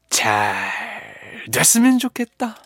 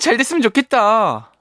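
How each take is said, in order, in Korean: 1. 무게감 있고 진지하게, 더 묵직하게 말해요. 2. 장난스럽고 과장되게, 우스꽝스럽게 말해요. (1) "조금 약간 무게감 있게" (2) "말맛을 넣어서 잘 됐으면 좋겠다. 너무 푼수 같나?"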